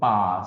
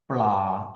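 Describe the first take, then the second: First: The word is said without an L sound. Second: The word is said with an L sound. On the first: This is how many native speakers actually say it. "많은 태국인들이 이 발음을 하지 않습니다" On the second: This is the original pronunciation. "원래는 리을 발음이 나거든요"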